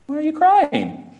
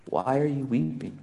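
First: Much higher, tactless asking of a mourner; mock a clueless passerby, pitched up high; blunt stranger's question. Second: Much softer, gentle and compassionate; tender hushed question. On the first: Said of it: "somebody comes up and goes". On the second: Acted. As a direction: ask it quietly, as if to someone weeping. Jesus' words, tender contrast.

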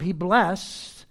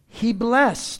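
First: Said in the usual way. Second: "blessed" pushed out louder and higher; stress on blessed. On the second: Shown as a demonstration. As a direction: lean hard into "blessed". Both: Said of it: "the emphasis is on that verb".

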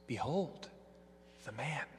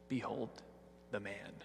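First: "Behold the man" spoken softer, gently rising in wonder; preacher revealing the deeper truth, soft and reverent; reverent awe. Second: "Behold the man" dropped softer, a quiet sneer; Pilate's mocking "Behold the man", said soft and scornful. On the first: Acted. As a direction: let "Behold the man" ring out quietly, full of awe. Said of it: "with a deeper truth". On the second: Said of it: "they're mocking words".

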